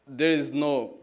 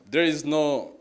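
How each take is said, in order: Both takes have the same delivery.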